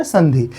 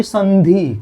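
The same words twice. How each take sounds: First: Said in the usual way. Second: संधि in two drawn-out parts, "san-dhee", clear n; careful pronunciation. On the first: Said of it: "क्या बोलते हैं". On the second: Shown as a demonstration. Teacher has students repeat the word, careful pronunciation. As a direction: stretch संधि slowly, sounding the dot as n. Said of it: "बढ़िया से उच्चारण करिए".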